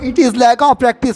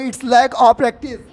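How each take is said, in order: First: 'It is' is said as two separate words. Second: 'It is' is joined into 'it's'.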